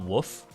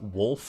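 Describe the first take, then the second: First: The L sound is left out. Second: The L sound is clearly pronounced. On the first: The speaker calls it wrong. "not woof ... they just skip the L entirely" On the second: The speaker calls it right. "the word was pronounced wolf"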